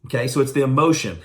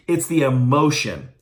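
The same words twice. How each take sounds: First: Said in the usual way. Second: Slow, weighted delivery of "it's the emotion"; stressed emphasis. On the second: Shown as a demonstration. Coach stressing his key point slowly and firmly. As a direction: lean on "emotion", slow and firm.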